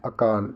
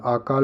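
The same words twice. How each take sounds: First: Said in the usual way. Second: आकाल starting on a long aa; long opening vowel. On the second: Shown as a demonstration. Teacher rejecting a spelling, long first aa in आकाल. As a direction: open आकाल with a drawn first aa. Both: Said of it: "आकाल नहीं".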